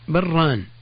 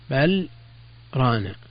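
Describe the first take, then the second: First: The words are merged with no pause between them. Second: A short pause separates the two words. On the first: It could be misheard as a dual noun. The speaker calls it wrong. "إذا وصلنا" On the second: The two words are heard as separate words. The speaker calls it right. "يسكت بعد بل يوقف عليها ثم يقال رانا"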